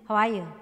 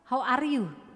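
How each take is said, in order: First: It is said quickly with an American accent. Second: It is said clearly with a Sundanese accent.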